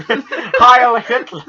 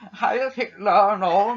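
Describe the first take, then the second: First: Slow, high mock German accent; German drawl. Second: Slow German villain voice with rising Heil; hammed-up German accent. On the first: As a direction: stretch it out in a hammy German accent. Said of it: "a slightly German drawl". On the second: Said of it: "I'm gonna do my German accent".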